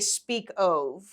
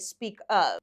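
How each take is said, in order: First: The vowel in 'of' is stretched toward 'oh'. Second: The vowel in 'of' is short and ordinary. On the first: The speaker calls it wrong. "We would never say speak of, ever" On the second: The speaker calls it right. "We would say speak of"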